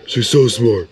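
It is said in a Patrick voice.

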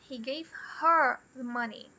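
The stress falls on the word her. She got the money, not the speaker. "He didn't give the money to me"

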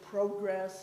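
The word has a Canadian pronunciation. "get a lot of jokes about pronouncing it progress"

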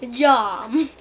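It is said in a made-up gibberish accent.

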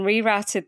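The word is said with an American pronunciation. "I've been listening to too many Americans"

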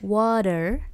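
The middle T sounds soft, like a D. "she would say water"

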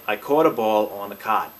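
It is said in a Mid-Atlantic accent.

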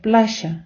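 The middle consonant is a 'sh' sound. "вони кажуть плаща"

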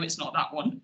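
The voice falls at the end. The speaker is stating a fact. "I aimed to say"

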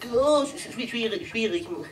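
The voice sounds flustered and chaotic. The hotel seems disorganized. The speaker calls it wrong. "du klingst ja auf wie ein Rudel betrunkener Teletubbies"

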